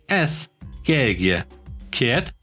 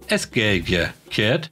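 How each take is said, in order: First: It is said slowly. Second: It is said at normal speed.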